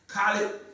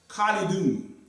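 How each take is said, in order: First: The name ends on a bare consonant. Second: The name ends with an added 'un' syllable. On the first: This is the everyday spoken form. "we just say Brother Khalid" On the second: This is the full grammatical form. "Khalidun is really the person name"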